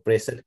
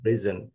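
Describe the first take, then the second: First: "present" as PREZ-ent, short e first; noun pronunciation. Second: "prison" as pri-ZEN, short i and buzzed z; verb pronunciation. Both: Shown as a demonstration. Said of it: "different pronunciation".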